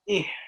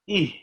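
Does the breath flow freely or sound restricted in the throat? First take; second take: restricted; free. First: The throat is tightened, giving a whistling hiss. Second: The breath flows out freely without throat restriction. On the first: The speaker calls it wrong. "It is not eh" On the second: The speaker calls it right. "The correct pronunciation here is eh"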